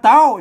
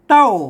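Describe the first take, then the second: First: It is said with the tri tone. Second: It is said with the tho tone. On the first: "เต้าเสียงตี" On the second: "เต้าเสียงโทน"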